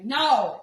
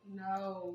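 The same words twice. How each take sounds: First: It is said forcefully, with power. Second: It is said softly, without force.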